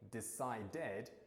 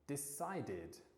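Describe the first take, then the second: First: The ending is said with an 'ed' sound. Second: The ending is said with an 'id' sound. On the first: The speaker calls it wrong. "instead of saying" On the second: The speaker calls it right. "we'll say ... It's a real did pronunciation"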